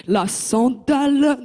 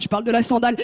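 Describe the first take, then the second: First: "sandale" stretched very slowly, each syllable leaned on; weighty sandale. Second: Said in the usual way. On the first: Shown as a demonstration. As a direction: draw out "sandale" heavily. ("sandale" très lentement, appuyé) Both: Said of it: "Non, non, la vraie sandale".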